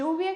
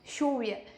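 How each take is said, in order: First: The first sound is a soft 'y' sound. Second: The first sound is a hushing 'sh' sound. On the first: "que você aprende com, com os dois L's" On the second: "eles falam mais chiado nessas duas letras"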